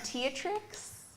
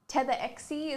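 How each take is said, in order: First: The name is said as Teatrix. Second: The name is said as Tetherexie. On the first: This is how other people say it. "I've had Teatrix" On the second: This is the most common way others say it. "Tetherexie is probably the most common one"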